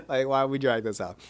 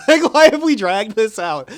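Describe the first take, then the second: First: Said in the usual way. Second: High, loud, drawn-out wail of complaint; laughing, pitched-up exasperation; exasperated outburst. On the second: Acted. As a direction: draw it out in comic despair. Exasperated outburst, then said once more.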